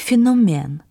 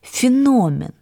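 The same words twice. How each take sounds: First: The stress does not fall on the letter o. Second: The stress falls on the letter o. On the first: This is the older, supposedly incorrect pronunciation. The speaker calls it wrong. "а вы произнесли «феномен»" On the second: This is the modern dictionary pronunciation. The speaker calls it right. "по-современному произносить это слово нужно с ударением на «о»"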